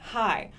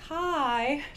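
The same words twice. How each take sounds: First: The vowel is short and normal. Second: The vowel is stretched out long.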